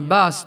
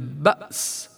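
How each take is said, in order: First: The glottal stop softens into an airy long vowel. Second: The glottal stop is pronounced firmly and clearly. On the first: The speaker calls it wrong. "فإنها تصبح وكأنها ألف أو واو مادية، رخوة هوائية" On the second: The speaker calls it right. "ونعطيها صفة الشدة"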